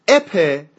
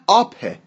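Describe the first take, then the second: First: The vowel sounds like the 'e' in 'bet'. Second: The vowel is a long, open 'ah'. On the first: "نه اپه" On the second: "نه آپه"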